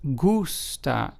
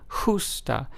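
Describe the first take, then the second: First: It begins with a hard g sound. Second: It begins with a softer, non-g sound. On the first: The speaker calls it right. "is pronounced as gusta" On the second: The speaker calls it wrong. "as opposed to justa"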